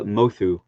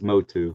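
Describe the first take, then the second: First: The middle consonant is a th sound. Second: The middle consonant is a plain t sound. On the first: The speaker calls it right. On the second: The speaker calls it wrong.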